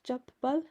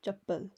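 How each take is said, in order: First: Chappal pulled apart, chap... pal; split syllables. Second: Said in the usual way. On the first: Shown as a demonstration. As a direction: chappal high, with a held double p. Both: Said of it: "It's like".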